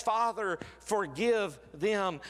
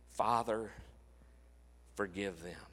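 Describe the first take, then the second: First: A high, slow, fervent plea from the cross; impassioned cry. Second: Much softer and lower, nearly a whisper; a quiet, tender echo of the cry; hushed plea. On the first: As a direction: cry out Father, forgive them at the peak. Climax of repeated cross words. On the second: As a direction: pull right back and let forgive them fall away. Same words after the climax, softened. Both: Acted.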